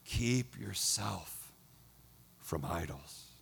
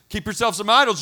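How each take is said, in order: First: It is said in a warm, loving tone. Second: It is said in a stern, threatening tone. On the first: The warning comes from tender affection. The speaker calls it right. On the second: The warning is a threat with conditions. The speaker calls it wrong.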